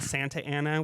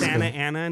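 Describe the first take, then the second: First: The T in Santa is clearly pronounced. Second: The T in Santa is dropped. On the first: This is how people from elsewhere say it. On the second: This is how people from the area say it. "we don't pronounce our T's"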